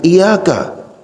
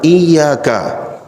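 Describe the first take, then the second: First: The y sound is short and single. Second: The y sound is held and doubled. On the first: We worship the edge of the sun. The speaker calls it wrong. "jangan iyyaka" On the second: You alone we worship. The speaker calls it right. "yang benar iyyaka"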